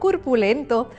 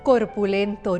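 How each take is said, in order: First: The first vowel is pronounced as 'u'. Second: The first vowel is pronounced as 'o'. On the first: The speaker calls it wrong. "no curpulento. Se trata de un error fonético de alteración de vocales" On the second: The speaker calls it right. "El término correcto es corpulento"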